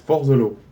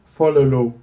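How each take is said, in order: First: Each word is separate, with a heavy French accent. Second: The words run together smoothly into one word. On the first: "en France, on le prononce fort the et bien the, Z-E. On le prononce comme ça. On est nul" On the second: "lui, il le prononce follow"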